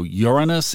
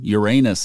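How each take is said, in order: First: The middle vowel is not a long A. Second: The middle vowel is a long A. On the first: "is the number one" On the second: "makes it a long A"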